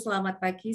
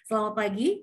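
First: The voice is flat and monotone. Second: The voice is lively, varied and smiling. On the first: The speaker calls it wrong. "tanpa intonasi" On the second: The speaker calls it right. "Dengan intonasi dan Halo. Smiling voice"

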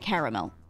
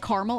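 First: The word is said with three syllables. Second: The word is said with two syllables. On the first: "Caramel is three symbols, syllables rather" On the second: "a different pronunciation"

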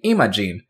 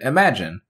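First: It does not sound like the word imagine. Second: It sounds like the English word imagine. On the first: "Some characters say Imogen" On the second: "others pronounce it like the English word imagine"

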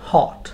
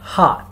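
First: The vowel is said with rounded lips. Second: The vowel is said with unrounded lips. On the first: "ব্রিটিশরা বলবে হট" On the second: "আমেরিকানসরা বলবে স্টপ হট"

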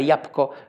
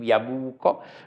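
First: The word is said quickly with sounds reduced. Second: Every sound is pronounced very carefully and fully. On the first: It sounds too rushed. "jabłko też jest zbyt pośpieszne" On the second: It sounds pretentious. "Gdyby ktoś mówił jabłko, to pewnie byłoby to dziwne"

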